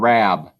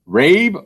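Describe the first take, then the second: First: The vowel is a short A sound. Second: The vowel is a long A sound. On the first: The speaker calls it right. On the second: The speaker calls it wrong.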